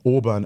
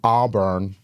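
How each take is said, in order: First: It is said in a non-American accent. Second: It is said in an American accent.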